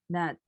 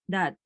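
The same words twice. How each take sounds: The two takes are said the same way.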